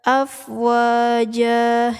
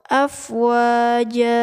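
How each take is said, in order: The two takes are said the same way.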